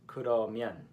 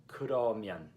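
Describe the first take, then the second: The two takes are said the same way.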